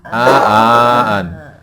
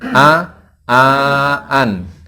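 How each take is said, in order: First: The syllables run together without any pauses. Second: Each syllable is separated by a short pause. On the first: The speaker calls it wrong. "jangan disambung ya. Jangan" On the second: The speaker calls it right. "biar dikasih jeda"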